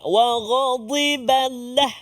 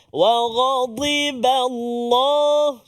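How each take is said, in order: First: The L in Allah is thin and light. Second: The L in Allah is heavy and full. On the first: The speaker calls it wrong. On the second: The speaker calls it right. "Allah lafzul jalalah pula tebal lagi"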